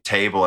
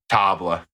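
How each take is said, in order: First: Said in the usual way. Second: "Table." said as French "tabl-uh", stress at the end; mock-French "Table." with the A like "ah"; goofy French "Table". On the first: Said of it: "goofy French way". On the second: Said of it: "say it in a f-, goofy French way".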